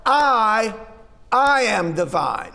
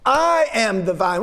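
First: "I" set apart and repeated, hit hard before "I am the vine"; stress on I. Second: Said in the usual way. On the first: Shown as a demonstration. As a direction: lean on "I", pause, then "I am the vine". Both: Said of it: "the emphasis is on that first part".

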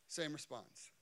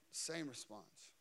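No difference in how they are said.

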